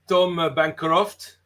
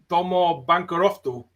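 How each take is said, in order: First: The name is said with a French accent. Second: The name is said with a Japanese accent. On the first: "in French" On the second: "in Japanese"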